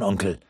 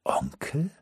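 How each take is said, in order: First: Said in the usual way. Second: Soft, rising, disbelieving "Onkel?"; surprised question. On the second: Acted. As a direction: ask "Onkel?" quietly, pitch climbing. Almut surprised at the word.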